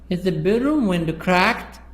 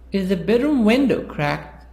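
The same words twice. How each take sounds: First: The word cracked carries the main stress. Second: The word window carries the main stress. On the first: The question is about what kind of damage it is. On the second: The question is about which part of the room it is.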